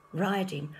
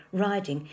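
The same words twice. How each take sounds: The two takes are said the same way.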